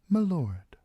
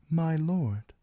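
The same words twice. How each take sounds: First: The words are slurred together like one word. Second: The two words are said clearly and separately. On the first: The speaker sounds like a peasant. The speaker calls it right. "say it as if you had mud in your mouth, or were too stupid to realize it was two words, not just one" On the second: The speaker sounds highborn. The speaker calls it wrong. "I said, my lord"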